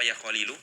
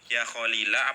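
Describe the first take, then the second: First: The name ends with a u vowel. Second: The name ends with an a vowel. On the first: The addressed noun is in the nominative case. The speaker calls it wrong. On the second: The addressed noun is in the accusative case. The speaker calls it right.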